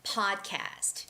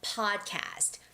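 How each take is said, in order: First: It is said with English pronunciation. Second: It is said with English pronunciation.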